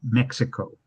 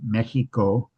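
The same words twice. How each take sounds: First: The x is sounded as ks. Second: The x is sounded as a throaty h. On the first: This is how non-Mexicans say it. "with a with a K S sound" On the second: This is how the locals say it. "the Spanish pronunciation"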